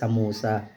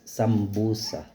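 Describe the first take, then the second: First: The middle is said with no b sound. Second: The middle is said with an mb sound. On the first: This is how it is said in the Philippines. "Dito sa Pilipinas kasi, ang pronounce nila is samusa" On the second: This is how it is said in Arabic. "Pero sa Arabic kasi is sambusa"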